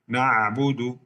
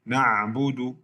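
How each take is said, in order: No difference in how they are said.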